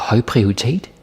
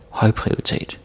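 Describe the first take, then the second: First: The stress is on prioritet, not høj. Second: The stress is on the word høj. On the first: The speaker calls it wrong. "Don't say like uh, høj prioritet. Right? Like that that would be weird" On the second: The speaker calls it right. "put the stress on høj ... That's how it is"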